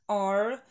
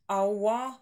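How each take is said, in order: First: The vowel is a single long ah. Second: The vowel is a gliding diphthong.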